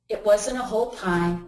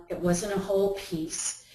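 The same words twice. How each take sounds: First: "wasn't" pressed, the rest plain; stress on wasn't. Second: "whole" stressed and falling, said softer overall. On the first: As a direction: lean on "wasn't" in It wasn't a whole pie. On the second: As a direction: lean on "whole" in It wasn't a whole piece. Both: Shown as a demonstration. Correcting herself on pie amount.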